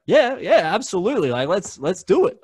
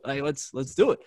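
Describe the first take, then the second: First: High, loud enthusiastic agreement; enthusiastic yes. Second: Said in the usual way. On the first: Retold or imitated. Agreeing to give Sarah a show, high and enthusiastic. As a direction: jump at the idea.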